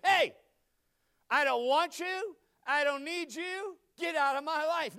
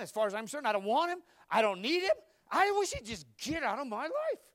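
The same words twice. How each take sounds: First: Loud, slow, pitched-up rebuff; mock tell-off. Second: Loud, rising indignant complaint; angry rant. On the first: [name] jokingly pretending he rebuffed Glenn, loud. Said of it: "I said". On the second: Retold or imitated. [name] venting to his wife about Glenn, indignant. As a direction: vent about Glenn, getting higher and louder.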